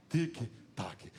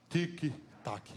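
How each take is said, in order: Both takes have the same delivery.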